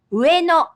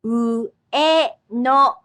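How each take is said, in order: First: Ueno said quickly, higher and louder, falling; natural Japanese. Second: Ueno drawn out as u-e-no, three separate beats; three syllables. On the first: Teacher giving the word at natural speed after the slow take. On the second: Teacher showing learners that the word has three syllables. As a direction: stretch Ueno into u-e-no. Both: Shown as a demonstration. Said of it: "It has three syllables".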